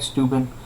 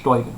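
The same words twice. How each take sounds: First: The name is read the way it looks. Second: The name is said unlike its spelling. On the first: The speaker calls it wrong. "it looks like Steuben" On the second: The speaker calls it right. "but pronounced Steuben"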